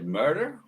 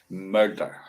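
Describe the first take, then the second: First: It is said with an American accent. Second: It is said with a Scottish accent. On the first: "Or in America, you say murder" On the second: "That's a Scottish way of saying murder"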